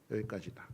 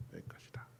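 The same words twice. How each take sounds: First: Said in the usual way. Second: 여기까지다 breathed as an unvoiced whisper. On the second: Shown as a demonstration. Preacher repeating God's stop to the congregation, whispered. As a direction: hush it down to a whisper. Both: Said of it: "너는 여기까지다".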